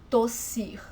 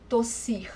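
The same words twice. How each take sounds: The two takes are said the same way.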